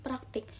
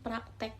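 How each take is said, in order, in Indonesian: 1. Suku kata terakhir memiliki vokal i. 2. Suku kata terakhir memiliki vokal e. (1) "Contoh kata baku" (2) "Contoh kata tidak baku"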